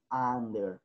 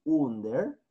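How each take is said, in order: First: Under with an open "a", "ander"; English under. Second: Under said as written, "undeɾ" with oo; spelled-out under. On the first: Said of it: "pronunciamos under". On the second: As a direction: read "under" letter by letter, oo-nder. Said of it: "Escribimos under". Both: Shown as a demonstration.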